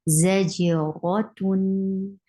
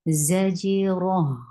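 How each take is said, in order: First: The word ends with a t sound and nasal ending. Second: The word ends with a flowing h sound. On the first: The reading continues without stopping. "you are uh, pronouncing tanween" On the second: The reading stops on this word. "How will you stop with your circled ta? You will change, exchange it into ha"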